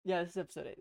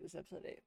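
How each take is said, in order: First: Said in the usual way. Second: Softer, offhand second take; quiet retake. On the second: Shown as a demonstration. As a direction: repeat it under your breath.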